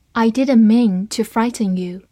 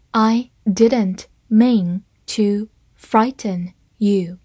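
First: Said in the usual way. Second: Slow, careful model reading. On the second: Shown as a demonstration. Teacher doing one slow read of the sentence, slow and clear. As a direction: say it slowly, syllable by syllable. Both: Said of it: "好，慢读一遍".

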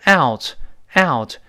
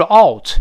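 First: "out" drawn slowly from open a to rounded u; full diphthong. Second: "out" with a rounded o vowel; mispronounced out. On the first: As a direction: stretch "out" wide, then close it. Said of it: "有一个咧嘴再收回来这个动作". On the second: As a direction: say "out" wrongly, like ought or oat. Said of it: "它后面不是". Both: Shown as a demonstration.

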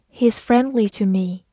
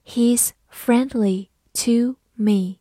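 First: Said in the usual way. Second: Each word slow and separate; slow reading. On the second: Shown as a demonstration. Teacher reads the example for learners to follow, slow reading. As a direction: model it slowly, pausing between words. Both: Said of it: "慢慢来读".

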